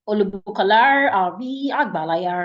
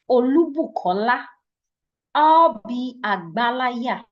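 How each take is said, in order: First: The name is said with an anglicized rhythm. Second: The name keeps its native Yoruba rhythm. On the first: The speaker calls it wrong. "I didn't sound it that way" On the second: The speaker calls it right. "I said my name is"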